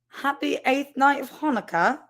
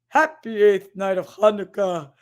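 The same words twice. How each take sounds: First: It is read in a British accent. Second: It is read in a Santa Claus voice.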